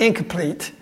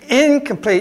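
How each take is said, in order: First: It is said as one single word. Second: It is said as two separate words. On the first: The surrender is not finished. The speaker calls it wrong. "not incomplete" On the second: The surrender is total. The speaker calls it right. "she's saying incomplete"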